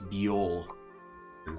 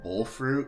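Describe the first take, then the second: First: The first word sounds like two syllables, 'bee-ol'. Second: The first word sounds like one syllable, 'bowl'. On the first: The speaker calls it right. "Apparently, it's biol fruit" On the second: The speaker calls it wrong. "I always call them bowl fruit"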